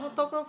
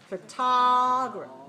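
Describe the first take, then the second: First: Every syllable's vowel sounds alike, none opened. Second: The second syllable has a long, open vowel. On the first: The speaker calls it wrong. "if your mouth looks the same, ... then you're not making the right sound" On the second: The speaker calls it right. "open your mouth. ... Make it long"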